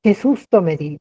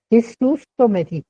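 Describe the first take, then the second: First: Said in the usual way. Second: Higher, emphatic cry of fright on Qué. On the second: Shown as a demonstration. Teacher acting out a near miss for students, emphatic fright. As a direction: really exclaim it, like the van nearly hit you. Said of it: "de una manera más enfática".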